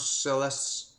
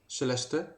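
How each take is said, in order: First: The name is said with an English pronunciation. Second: The name is said with a Dutch pronunciation. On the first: The speaker calls it right. "that was correct" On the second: The speaker calls it wrong. "in Dutch I wouldn't say it correctly"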